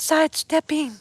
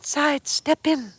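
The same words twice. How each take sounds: First: The ending is said with a full g sound. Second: The ending is said without the g sound. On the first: The speaker calls it wrong. "It's not sidestepping" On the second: The speaker calls it right. "without the G"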